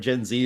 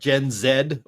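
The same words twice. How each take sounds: First: Z is said 'zee', the American way. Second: Z is said 'zed', the Canadian way.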